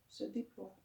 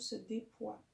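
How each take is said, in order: First: "déploie" said with its L, "dé-plwa"; corrected pronunciation. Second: "déploie" fumbled without its L, as "dépoie"; slip of the tongue. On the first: Yoga teacher correcting a slip, "déploie" with a clear L. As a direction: sound the PL in "déploie" softly. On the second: Yoga teacher tripping on "déploie", said as "dépoie", a slip. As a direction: drop the L in "déploie". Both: Real, not acted.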